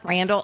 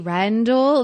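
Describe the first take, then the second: First: The name is said with an American accent. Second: The name is said with a British accent. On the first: The speaker calls it wrong. "not Randall" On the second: The speaker calls it right. "it's British to me. ... it has to be Randall"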